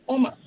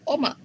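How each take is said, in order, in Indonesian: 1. Vokal pertama adalah o. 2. Vokal pertama adalah o.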